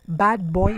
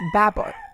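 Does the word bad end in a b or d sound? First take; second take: d; b. First: Bad ends with a clear d sound. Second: Bad ends with a b sound.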